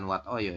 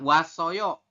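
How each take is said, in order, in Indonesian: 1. Bunyi t ada sebelum akhiran. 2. Bunyi s menyambung ke akhiran. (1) "bukan Wat Oyo ya" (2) "dibacanya S"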